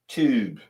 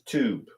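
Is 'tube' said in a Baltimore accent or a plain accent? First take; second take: Baltimore; plain. First: It is said in a Baltimore accent. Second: It is said in a plain, neutral accent.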